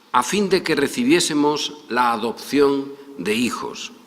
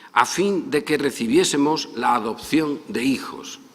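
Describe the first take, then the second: Both takes have the same delivery.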